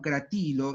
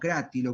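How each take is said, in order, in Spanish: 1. El acento cae en la segunda sílaba. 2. El acento cae en la primera sílaba. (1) "hay que pronunciarlo" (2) "como debería pronunciarse"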